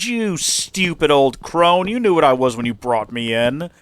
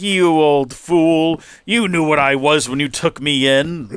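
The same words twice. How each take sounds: First: Hammed-up treacherous snake gloating; villain snake. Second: Louder, very slow gloating; mock-menacing dragon savoring the betrayal; Toothless the villain. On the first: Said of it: "And he said". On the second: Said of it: "He goes like".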